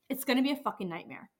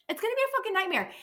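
First: Said in the usual way. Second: Exasperated outburst. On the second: Real, not acted. Repeats line higher, faster.

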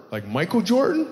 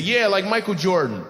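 First: Jordan rising in a question; "Like Michael Jordan?" ending on a high rise; amused question. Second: "Yeah, like Michael Jordan." said flatly with a falling end; imitating the clueless man's flat statement; flat echo. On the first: Real, not acted. Host asks about the name. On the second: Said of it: "He said".

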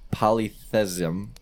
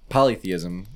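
First: Polytheism slowed right down and stumbled, rising; unsure pronunciation. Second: Polytheism said whole and smoothly as pa-lee-THEE-iz-um; corrected pronunciation. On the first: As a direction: sound out polytheism slowly, unsure of each syllable. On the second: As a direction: settle on polytheism in one even go. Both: Real, not acted. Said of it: "I don't know if that's right how you say it".

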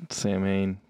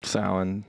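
First: "Sam Hain" said as two words, SAM HAYN; spelling pronunciation. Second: "Samhain" said SOW-in, low and soft; Gaelic pronunciation. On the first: Co-host giving the other version, "Sam Hain" said SAM HAYN. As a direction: say "Sam Hain" just as spelt, low and soft. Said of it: "Sam Hain's the [name] band". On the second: Co-host trying the name, "Samhain" said SOW-in. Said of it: "Is that Samhain?". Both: Shown as a demonstration.

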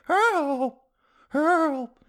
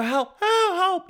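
First: Put-on high old-lady voice calling help; a weak, far-off granny plea for help; grandma yelling again. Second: Put-on high, shrill-pitched old lady cry for help, much higher; mock granny screaming help from behind the window; grandma yelling. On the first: Comic repeating the trapped grandma's high help cry. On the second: Comic telling a hero fantasy, imitating a trapped grandma's high cry for help. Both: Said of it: "You know how grandmas yell".

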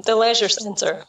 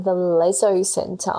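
First: "leisure" said as lezh-er; corrected word. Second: "Leisure" said like "lezzo"; misheard word. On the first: Shown as a demonstration. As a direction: say "leisure" with a zh, ending in -er. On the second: Retold or imitated. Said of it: "Australians add an O onto the end".

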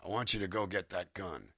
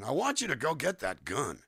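First: Said in the usual way. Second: "I want you to go get that gun" higher and louder; sing-song melodic emphasis. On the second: Shown as a demonstration. Voice actor showing how a line's melody changes, emphatic high reading. Demo of two melodies, contrasted.

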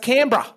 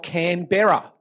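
First: "Canberra" squeezed into "CAN-bra"; local pronunciation. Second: "Canberra" in three syllables, Can-BER-ra; as spelt. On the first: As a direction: drop the middle vowel of "Canberra": "Canbra". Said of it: "It's pronounced". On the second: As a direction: sound out "Canberra" fully, with a clear "ber". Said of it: "looks like it's spelt". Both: Shown as a demonstration.

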